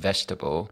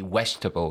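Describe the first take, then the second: First: The word begins with a clear v sound. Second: The word begins with a w-like sound. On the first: The speaker calls it right. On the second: The speaker calls it wrong.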